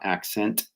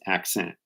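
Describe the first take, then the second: First: The T is pronounced as a full T. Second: The T is pronounced as a glottal stop. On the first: The speaker calls it wrong. "it's not accent" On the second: The speaker calls it right. "we even have the glottal stop on the T"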